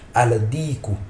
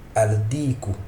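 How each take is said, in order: Both takes have the same delivery.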